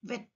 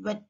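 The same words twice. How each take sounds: First: "వెట్" as vet, teeth on lower lip; "వెట్" with a clear V onset; V sound. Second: "వెట్" as wet, lips rounded; "వెట్" with lips pushed forward; W sound. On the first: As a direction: start "వెట్" with V. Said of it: "వి sound ఎలా వస్తుంది?". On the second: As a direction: start "వెట్" with W. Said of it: "mouth shape changes". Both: Shown as a demonstration.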